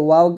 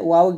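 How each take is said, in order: The two takes are said the same way.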